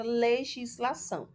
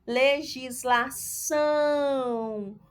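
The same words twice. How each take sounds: First: Said in the usual way. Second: Legislação very slow, ÇÃO hugely stretched; stress on ÇÃO. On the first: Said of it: "Vamos lá analisar a palavra". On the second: Shown as a demonstration. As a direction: sound out Legislação, holding the final ÇÃO long. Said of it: "o são é a sílaba". (Legislação devagar, com ÇÃO bem esticado)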